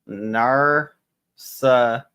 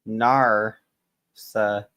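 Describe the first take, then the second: The two takes are said the same way.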